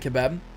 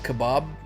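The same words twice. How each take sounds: First: It is said with a non-American pronunciation. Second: It is said with an American pronunciation. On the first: "instead of" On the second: "you guys that are in America would say"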